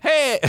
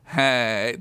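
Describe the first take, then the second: First: Put-on very high, childlike greeting; little-girl voice. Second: Said in the usual way. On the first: A narrator's reading. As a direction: pipe up like a small girl. Wrong character voice, corrects herself.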